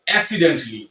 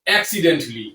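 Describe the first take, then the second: Both takes have the same delivery.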